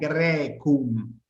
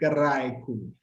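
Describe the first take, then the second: First: The first vowel is a plain e sound. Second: The first vowel is an ai diphthong. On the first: This is the later church-style pronunciation. "quienes estén acostumbrados a la pronunciación eclesiástica lo van a conocer como Grecum" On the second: This is the classical pronunciation. "Nosotros hacemos una pronunciación más clásica y hacemos Graecum"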